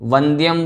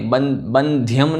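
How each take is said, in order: First: The word begins with a v sound. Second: The word begins with a b sound. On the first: The speaker calls it right. "वंद्यम बोलना है" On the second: The speaker calls it wrong. "बंध्यम नहीं"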